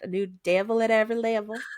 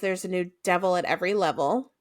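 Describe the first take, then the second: First: It is said in a Texas accent. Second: It is said in the speaker's usual accent.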